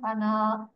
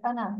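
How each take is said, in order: First: The final vowel is long. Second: The final vowel is short. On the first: The speaker calls it wrong. "not ana" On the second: The speaker calls it right. "it's short na sound here"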